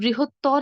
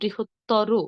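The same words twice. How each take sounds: First: The word ends in a bare consonant. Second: The word ends with an 'o' vowel. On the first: The speaker calls it wrong. "না বলে" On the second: The speaker calls it right. "ওকার দিয়ে উচ্চারণ করব"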